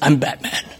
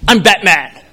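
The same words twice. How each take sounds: First: It is said in a deeper voice. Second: It is said in an ordinary voice.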